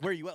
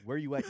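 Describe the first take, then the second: First: It is yelled loudly. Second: It is said calmly, not yelled.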